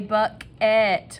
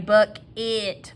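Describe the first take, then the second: First: The second syllable has an "et" vowel. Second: The second syllable has an "it" vowel. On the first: This is a careful way of saying it to help spelling. "When we're spelling it, we say buck-et" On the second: This is the everyday local way of saying it. "I say buck it"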